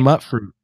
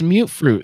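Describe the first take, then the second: First: The first word sounds like 'mutt', short vowel. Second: The first word sounds like 'mute', long vowel. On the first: The speaker calls it wrong. "I used to say mutt fruit" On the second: The speaker calls it right. "yeah, it's mute fruit"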